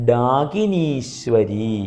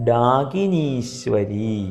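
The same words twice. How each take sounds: No difference in how they are said.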